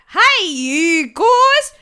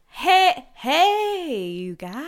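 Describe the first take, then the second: First: The accent sounds less southern. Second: The accent sounds more southern.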